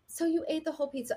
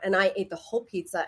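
First: It is said in a soft, kind voice. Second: It is said in a harsh, disgusted voice.

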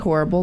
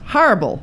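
First: It is said in a plain, non-New York style. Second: It is said in a New York style. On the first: This is the speaker's old way of saying it. The speaker calls it wrong. "It used to be horrible" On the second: This is the speaker's newly adopted way of saying it. The speaker calls it right. "Now it's horrible. ... That's New York"

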